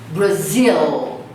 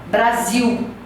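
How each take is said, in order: First: The final L is a clear tongue-tip L. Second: The final L sounds like a 'u' vowel. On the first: The speaker calls it right. "Ele deve ser pronunciada o L bem enfático" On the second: The speaker calls it wrong. "como se fosse um U"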